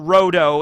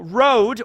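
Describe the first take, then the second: First: It ends with a separate do syllable. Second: It sounds like the English word road. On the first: "ro and then the long vowel sound do" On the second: "road is funny because that's like an English word for a street"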